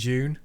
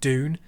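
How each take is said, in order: First: It starts with a j-like sound. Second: It starts with a plain d sound. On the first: The speaker calls it wrong. "rather than" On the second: The speaker calls it right. "I really prefer the American way of saying D"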